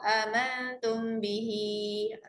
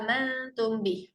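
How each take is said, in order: First: The last word ends with a long, drawn-out vowel. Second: The last word ends abruptly with no vowel. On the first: The reader continues into the next word. "Kalau sambung amantum bihi, tarik empat" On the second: The reader stops at this word. "bih berhenti"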